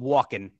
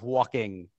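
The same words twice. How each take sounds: First: The ending is swallowed and clipped. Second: The ending is pronounced fully and clearly. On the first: "you tend to swallow words often" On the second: "instead of walking"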